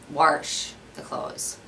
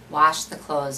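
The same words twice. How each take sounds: First: It is said in a Wisconsin accent. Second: It is said in a standard accent.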